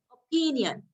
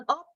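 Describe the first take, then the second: First: OPINion, weight and length on PIN; second-syllable stress. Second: Opinion with the stress on O; wrong first-syllable stress. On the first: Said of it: "in the second syllable". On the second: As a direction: put the weight on the opening O of opinion. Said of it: "It's not opinion". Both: Shown as a demonstration.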